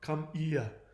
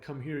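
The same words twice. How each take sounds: First: The H in here is dropped. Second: The H in here is clearly pronounced. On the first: "you're going to drop your H and it's going to sound ridiculous" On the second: "whenever you want to say"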